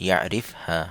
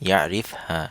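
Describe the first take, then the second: No difference in how they are said.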